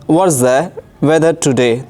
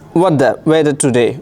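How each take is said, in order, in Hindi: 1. हर शब्द पूरा और अलग-अलग बोला गया है। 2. शब्द आपस में जुड़ जाते हैं और कुछ ध्वनियाँ छूट जाती हैं। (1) "अगर हम पढ़ेंगे तो ऐसे कहेंगे" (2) "कोई अंग्रेज़ बोलता है... वो ऐसे कहेगा"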